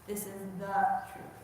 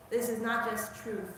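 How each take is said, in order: First: The leaned on, set against just truth; stress on the. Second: Said in the usual way. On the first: Shown as a demonstration. Teacher contrasting the truth with just truth, stressing the. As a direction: lean on the word the.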